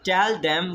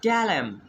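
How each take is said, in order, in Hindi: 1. शब्द 'them' पूरा बोला गया है। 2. शब्द 'them' छोटा और कम करके बोला गया है। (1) "Instead of speaking" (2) "we speak"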